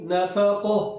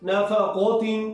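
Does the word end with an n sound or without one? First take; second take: without n; with n. First: The word ends cut short on a silent h. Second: The word ends with a full nasal -tin ending. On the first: The reader stops at this word. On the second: The reader continues without stopping.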